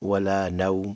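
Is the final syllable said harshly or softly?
softly. The final syllable is soft and can be lengthened. The speaker calls it right. "नरमी से पढ़ना है"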